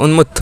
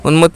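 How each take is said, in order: No difference in how they are said.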